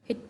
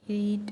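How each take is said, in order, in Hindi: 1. स्वर छोटा है, 'i' जैसा। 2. स्वर लंबा है, 'ee' जैसा। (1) "एकदम हिट हिट पढ़ा है" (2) "हमने हीट हीट नहीं पढ़ा"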